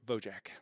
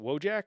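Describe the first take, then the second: First: The name begins with a V sound. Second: The name begins with a W sound. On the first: "or pronounced as a V, as an English V?" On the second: "Is it a W"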